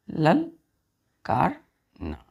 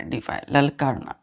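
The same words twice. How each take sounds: First: ललकारना stretched very long, every sound held; very slow word. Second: Said in the usual way. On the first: Shown as a demonstration. Teacher to children, giving the meaning: very slow and stretched. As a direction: draw out ललकारना for the pupils. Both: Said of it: "डिफाई का मतलब होता है बच्चों".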